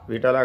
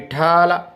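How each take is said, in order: First: The middle syllable is short and unstressed. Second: The middle syllable is long and stressed. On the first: The speaker calls it wrong. "Vitthala కాదు" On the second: The speaker calls it right. "ఒత్తు ఠా వలన"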